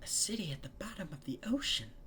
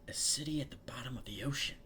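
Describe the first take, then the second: First: It is said in an imitation of Fluttershy. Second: It is said in the reader's own voice.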